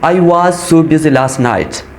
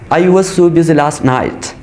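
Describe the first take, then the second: First: The word 'was' is said in full form. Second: The word 'was' is said in reduced form. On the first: "strong palm" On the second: "weak palm की जैसे"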